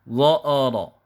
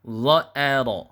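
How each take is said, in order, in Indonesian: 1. Vokal di tengah menjadi tebal dan gelap. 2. Vokal di tengah tetap ringan dan tipis. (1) "Contoh yang salah, contoh yang vokalnya terpengaruh" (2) "yang betul adalah"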